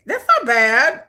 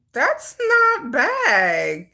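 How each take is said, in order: First: Said in the usual way. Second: "that's not bad" stretched very slowly; long drawn-out. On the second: Real, not acted. Judging the backpack's price, "that's not bad" long drawn-out. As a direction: drag out each word of "that's not bad".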